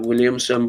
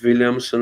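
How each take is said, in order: First: The name starts with a W sound. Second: The name starts with a V sound. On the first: "I just say Williamson" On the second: "you do pronounce the W as A V"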